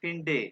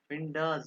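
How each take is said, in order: First: The word ends with an 'e' vowel. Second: The word ends with an 'a' vowel. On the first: The speaker calls it right. "English ए की तरह" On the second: The speaker calls it wrong. "ये हमेशा एंड पे आ क्यों आता है?"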